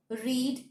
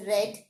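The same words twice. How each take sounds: First: Said in the usual way. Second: "read" with a short e, rhyming with "red"; past-tense pronunciation. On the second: Shown as a demonstration. Teacher explaining the base verb's past form, "read" pronounced like "red". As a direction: say "read" as "red", not "reed". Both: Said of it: "is pronounced as read in the past tense".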